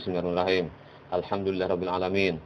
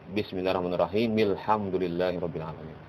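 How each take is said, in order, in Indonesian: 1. Ada berhenti setelah basmalah. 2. Basmalah langsung bersambung ke ayat berikutnya. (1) "putusnya ya" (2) "Mereka menganjurkan bismillah itu bersambung kepada alhamdulillah"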